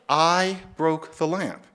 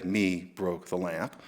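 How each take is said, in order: First: Slow, deliberate "I broke the lamp"; slow demo. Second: Lower, softer, slow "Me broke the lamp"; wrong-form demo. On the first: Showing listeners the accepted sentence, slow and deliberate. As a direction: lay out "I broke the lamp" slowly as the proper example. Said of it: "Now, no, you wouldn't say". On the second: Showing listeners the sentence nobody says, low and slow. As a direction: drop it low and slow like an obvious mistake. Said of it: "you wouldn't say". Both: Shown as a demonstration.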